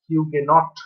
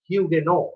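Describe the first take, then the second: First: The word ends with a clear t sound. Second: The word ends without any t sound. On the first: The speaker calls it wrong. "এইভাবে উচ্চারণ অনেকে করে থাকেন, যেটা সঠিক উচ্চারণ নয়।" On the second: The speaker calls it right. "লাস্টের যে টি টা সেটা মিউট থাকবে।"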